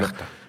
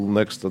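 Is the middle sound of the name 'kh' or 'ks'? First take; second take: kh; ks. First: The middle of the name has a 'kh' sound. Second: The middle of the name has a 'ks' sound.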